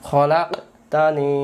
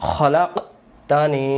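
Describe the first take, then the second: Both takes have the same delivery.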